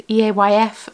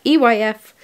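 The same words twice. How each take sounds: First: Letters E A Y F spelled out one by one; wrong abbreviation. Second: Letters E Y F spelled out one by one; corrected abbreviation. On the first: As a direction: spell out E A Y F with the extra A. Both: Real, not acted. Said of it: "no, not E A Y F".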